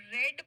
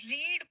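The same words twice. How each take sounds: First: "read" as past tense, rhymes with bed. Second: "read" as base form, rhymes with need; present tense read. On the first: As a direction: read said like "red", short e. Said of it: "पढ़ लिया को आप read pronounce करेंगे". ("read" का उच्चारण "रेड" जैसा) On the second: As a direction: read said like "reed", long ee. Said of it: "did के साथ में आएगा, उसको आप read प्रोनाउंस करेंगे". ("read" का उच्चारण "रीड" जैसा) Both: Shown as a demonstration.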